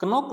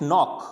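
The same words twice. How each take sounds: First: कनॉक with a k before the n; कनॉक, silent K wrongly voiced; sounded K. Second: नॉक starting on n; no k before the n in नॉक; silent K. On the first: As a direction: put a hard k on the front of कनॉक. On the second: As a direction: begin नॉक straight on its n. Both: Shown as a demonstration. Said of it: "कनॉक नहीं पढ़ेंगे".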